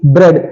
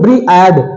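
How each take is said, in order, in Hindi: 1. स्वर एक छोटी ध्वनि के रूप में बोला जाता है। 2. स्वर दो अलग ध्वनियों के रूप में बोला जाता है। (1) "इसमें ए का साउंड साइलेंट है, इसे हम ब्रेड बोलते हैं" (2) "क्या इसे हम ब्रीएड बोलते हैं, नहीं"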